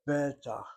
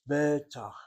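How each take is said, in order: First: The stress is on the first syllable. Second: The stress is on the first syllable.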